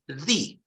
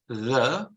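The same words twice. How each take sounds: First: It is said in a full, strong form. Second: It is said in a short, weak form.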